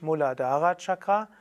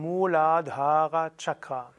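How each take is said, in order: First: The vowels in Muladhara are said short. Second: The vowels in Muladhara are said long. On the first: The speaker calls it wrong. "Also nicht Muladhara Chakra" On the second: The speaker calls it right. "3 lange Vokale"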